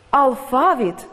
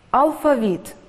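First: Алфавіт with the stress on фа; Алфавіт pronounced al-FA-vit; stress on middle syllable. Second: Алфавіт with the stress on віт; алфавіт pronounced al-fa-VIT; stress on last syllable. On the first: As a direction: lean on the second syllable of Алфавіт, higher pitch. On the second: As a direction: save the weight for the final syllable of алфавіт. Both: Shown as a demonstration. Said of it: "Слова із подвійним наголосом".

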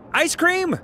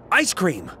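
First: Very high-pitched, pleading question; hopeful offer. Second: Moderately high, falling exclamation; sudden realization. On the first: Rejected suitor offering a treat, high hopeful plea. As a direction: squeak out one last offer. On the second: Suitor remembers where the meeting is, sudden realization. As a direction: land it as a discovery, not an offer. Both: Acted.

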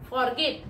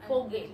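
First: Forget. said as FOR-get, with the r; Forget. said wrongly, as FOR-get; common mispronunciation. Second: Forget. said as fuh-GET, with no r; Forget. said rightly, as fuh-GET; correct pronunciation. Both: Shown as a demonstration.

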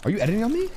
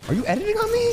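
First: Said in the usual way. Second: Much higher squealing echo; squeaky mock outrage. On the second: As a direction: squeal the repeat in mock shock. Repeated taunt, squeal.

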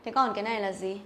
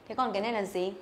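Both takes have the same delivery.

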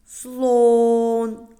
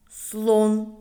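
First: "слон" with a long, loud, level о; emphatic sounding-out of "слон", vowel sustained; drawn-out vowel. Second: Said in the usual way. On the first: Shown as a demonstration. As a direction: stretch the о in "слон" on a higher held note. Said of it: "заховався в слові". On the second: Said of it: "Проговоримо".

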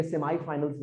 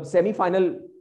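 First: सेमीफाइनल्स starting "seh-my"; सेमीफाइनल्स, prefix said as "sem-eye"; sem-eye pronunciation. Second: सेमीफाइनल starting "seh-mee"; सेमीफाइनल, prefix rhyming with "Emmy"; semi pronunciation. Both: Shown as a demonstration. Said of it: "जो मर्जी pronunciation दे दें".

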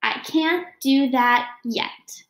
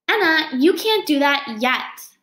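First: Slow, with "yet" pressed home; a hopeful slow read that lands on "yet"; stress on yet. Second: Slow and steady, leaning on "yet"; coaching the word "yet" with a slow, firm lean; stress on yet. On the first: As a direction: say it slowly and land on "yet". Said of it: "I'll get it right". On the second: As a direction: say it slowly, landing on "yet". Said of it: "what Miss Krause always says". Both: Shown as a demonstration.

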